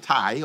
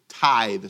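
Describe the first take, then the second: First: The word is said without a 'th' sound. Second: The word is said with a 'th' sound. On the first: The speaker calls it wrong. "T-I-E-S and all that. No, it's not a tithe" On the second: The speaker calls it right. "It's tithe"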